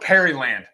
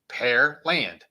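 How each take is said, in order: First: The name is said with three syllables. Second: The name is said with two syllables. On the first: "I've heard of people pronounce it that way too" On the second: "the city I graduated is called Pearland"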